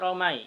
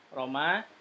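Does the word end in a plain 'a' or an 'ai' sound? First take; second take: ai; a. First: The word ends in an 'ai' diphthong. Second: The word ends in a plain 'a' vowel. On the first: The speaker calls it wrong. "bukan romai" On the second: The speaker calls it right.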